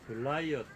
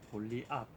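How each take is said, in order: First: The name sounds like guh-lie-uht, with a glide. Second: The name sounds like gol-li-at, three syllables. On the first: "영어로 건너가서 글라이어트 이렇게 기록되고 발음이 되고" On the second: "한글로 와서는 골리앗 이렇게 발음이 돼서"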